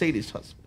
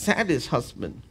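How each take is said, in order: First: The first vowel of sadist sounds like 'ay'. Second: The first vowel of sadist sounds like 'ah'.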